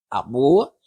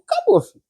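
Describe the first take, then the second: First: Said in the usual way. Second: Squeaky high mock alarm, far higher; a sudden shrill comic wail; mock dramatic. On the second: Preacher joking to congregation, shrill mock alarm. Ex-alcoholic back at the bar.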